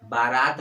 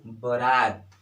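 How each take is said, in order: First: बारात said with long aa, baa-raat; teacher shows the mistake: बारात as baa-raat, long first vowel; wrong pronunciation. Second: बारात said as बरात, short first a; teacher models बारात for students as bə-raat, short first vowel; correct pronunciation. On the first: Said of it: "बारात नहीं होता है". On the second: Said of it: "क्या होता है? बारात।". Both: Shown as a demonstration.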